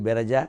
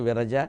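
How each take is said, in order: First: The name begins with a b sound. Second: The name begins with a v sound. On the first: "వకారం బకారం బకారం వకారన్నా పలుకుతారు" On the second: "ఆవిడే విరజ"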